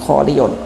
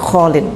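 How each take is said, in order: First: The word ends with a full '-iyun' syllable. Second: The word ends with a short '-in' ending. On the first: This is the original underlying form. "Asalnya kholiyun ya" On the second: This is the form after the sound change. "malah menjadi kholin"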